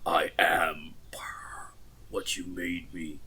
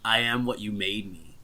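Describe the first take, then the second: First: It is said in an imitation of Darth Vader's voice. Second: It is said in the speaker's normal voice.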